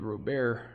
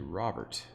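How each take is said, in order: First: The name is pronounced the Spanish way. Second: The name is pronounced the English way. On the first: The speaker calls it wrong. "I always thought that Spanish that would be Robert" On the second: The speaker calls it right. "But it's actually Robert"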